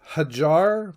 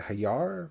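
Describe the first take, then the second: First: The middle consonant is a J sound. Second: The middle consonant is a Y sound. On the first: The speaker calls it wrong. "I don't think it's J is pronounced with a J" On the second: The speaker calls it right. "I think it's pronounced like a Y"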